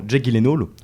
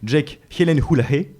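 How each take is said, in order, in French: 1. Le nom de famille a sa prononciation anglaise habituelle. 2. Le nom de famille a une prononciation à la suédoise.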